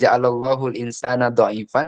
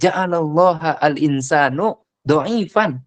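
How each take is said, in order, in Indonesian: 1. Allah berakhir dengan u; insan berakhir dengan a. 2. Allah berakhir dengan a; insan berakhir dengan u. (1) "artinya adalah Allah menjadikan manusia itu lemah" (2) "manusia menjadikan Allah itu lemah"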